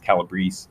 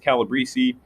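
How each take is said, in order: First: The name is said without the added accent. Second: The name is said with an added accent. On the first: The speaker calls it right. "I just found out recently it's Calabrese" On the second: The speaker calls it wrong. "I've been mispronouncing as Calabrese"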